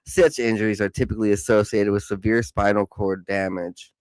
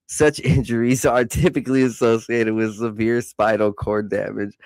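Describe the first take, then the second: First: Said in the usual way. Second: Giggling while reading; laughing through words. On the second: Real, not acted. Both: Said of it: "Such injuries are typically ... severe spinal cord damage".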